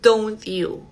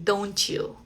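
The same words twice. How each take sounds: First: The T and 'you' are said separately. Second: The T links into a Y sound before 'you'. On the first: The speaker calls it wrong. "no decimos don't you" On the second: The speaker calls it right. "vas a pronunciarla así"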